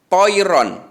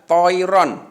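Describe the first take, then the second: The two takes are said the same way.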